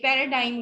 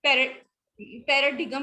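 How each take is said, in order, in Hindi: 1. बीच में कोई 'g' ध्वनि नहीं बोली जाती। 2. बीच में कठोर 'g' ध्वनि बोली जाती है। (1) "ये पैराडाइम होता है" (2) "पैराडिगम नहीं होता"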